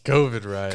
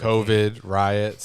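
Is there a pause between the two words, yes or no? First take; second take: no; yes. First: The two words run together without a pause. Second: A clear pause separates the two words. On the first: The riots are about COVID. The speaker calls it wrong. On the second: COVID and riots are separate items in a list. The speaker calls it right.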